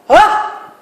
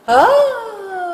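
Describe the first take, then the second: First: It is said forcefully and hard. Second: It is said lightly, floating up and down.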